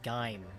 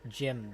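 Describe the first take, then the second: First: It does not sound like the name Jim. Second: It sounds like the name Jim. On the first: The speaker calls it wrong. "People don't pronounce it like like Gime" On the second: The speaker calls it right. "They pronounce it like Jim, the like the name"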